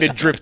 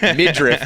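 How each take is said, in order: First: The word is said with a 'd' before 'rift'. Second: The word is said with no 'd' before 'riff'. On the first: The speaker calls it wrong. "it's not mid-drift" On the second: The speaker calls it right. "It's spelled R I F F"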